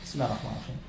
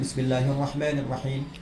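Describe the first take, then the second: First: It is said quietly, almost under the breath. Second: It is said loudly and clearly. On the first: "Kedua silent" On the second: "Satu dijaharkan, dikencangkan"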